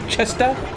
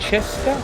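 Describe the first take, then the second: First: The first syllable sounds like 'chest'. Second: The first syllable sounds like 'chair'. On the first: This is how people usually say the name. "people um usually call it like chest" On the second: This is how the name's owner says it. "you said it was more of a like a like a chair"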